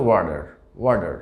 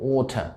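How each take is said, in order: First: American ওয়ার্ডার, "water" with t as d; t softened to d in ওয়ার্ডার; American pronunciation. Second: ওঠা, "water" with a clear t and no r; crisp t in ওঠা; British pronunciation. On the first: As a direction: say ওয়ার্ডার as "wa-der". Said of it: "আমেরিকানরা উচ্চারণ করে থাকে". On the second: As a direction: say ওঠা as "waw-tuh". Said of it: "ওয়ার্ডের মধ্যকার টিকে". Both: Shown as a demonstration.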